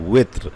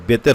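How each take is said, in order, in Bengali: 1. শব্দটি w ধ্বনি দিয়ে শুরু হয়। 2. শব্দটি b ধ্বনি দিয়ে শুরু হয়। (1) "ওয়াউজের ওয়েত্র" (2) "আসলে ওটা বেতের বেতের হবে না"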